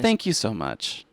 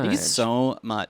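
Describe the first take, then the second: First: It is said in a nice tone. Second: It is said in a mean tone.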